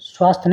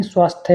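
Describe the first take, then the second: First: स्वास्थ्य cut to "swaasth", no final glide; mispronunciation. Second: Said in the usual way. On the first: Shown as a demonstration. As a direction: drop the last y of स्वास्थ्य. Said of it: "स्वास्थ्य नहीं". (स्वास्थ्य बिना अंतिम 'य' के) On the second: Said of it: "स्वास्थ्य होता है".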